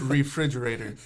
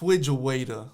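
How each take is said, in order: First: The word is said in full, re-frig-er-a-tor. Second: The word is squashed into two parts, fridge-waiter. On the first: This is the proper form of the word. The speaker calls it right. "say it right. It's refrigerator" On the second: A small child is mispronouncing the word. The speaker calls it wrong. "she used to say with Fridgewaiter"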